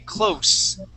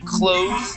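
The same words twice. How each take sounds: First: The word ends with a soft S sound. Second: The word ends with a buzzing Z sound. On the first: It means near to something. "If it is not a verb, uh, we say close" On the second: It means to shut something. "that is that Z sound"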